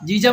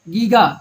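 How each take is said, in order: First: Both consonants are soft J sounds. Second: Both consonants are hard G sounds. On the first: The speaker calls it wrong. "जीजा मत पढ़ना" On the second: The speaker calls it right. "इसको पढ़ते हैं गीगा"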